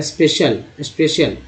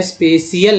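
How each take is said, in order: First: स्पेशल as spe-shal; स्पेशल said cleanly; correct pronunciation. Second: स्पेशल as spe-si-al; the mistake to avoid in स्पेशल; स्पेशल split wrongly; wrong pronunciation. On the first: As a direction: give the proper स्पेशल. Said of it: "नहीं पढ़ेंगे". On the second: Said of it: "स्पेशल नहीं पढ़ेंगे". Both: Shown as a demonstration.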